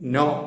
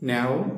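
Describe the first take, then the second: First: The vowel is a plain 'o', like 'no'. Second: The vowel glides, sounding close to 'now'. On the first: The speaker calls it wrong. "നോ എന്നല്ല" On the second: The speaker calls it right. "Correct pronunciation ... നാവ് എന്നാണ്"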